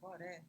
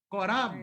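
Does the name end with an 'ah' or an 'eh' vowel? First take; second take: eh; ah. First: The name ends with an 'eh' vowel. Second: The name ends with an open 'ah' vowel. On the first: The speaker calls it wrong. "Aqui está Coré na tradição" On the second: The speaker calls it right. "eu já falei para os irmãos que é Corá"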